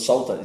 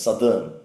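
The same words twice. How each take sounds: First: The first vowel sounds like in 'south'. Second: The first vowel sounds like in 'sun'. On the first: The speaker calls it wrong. "It's not southern" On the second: The speaker calls it right. "It's southern"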